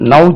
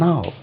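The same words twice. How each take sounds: First: The vowel begins with a short 'uh' sound. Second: The vowel begins with a long open 'ah' sound. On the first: The speaker calls it wrong. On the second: The speaker calls it right.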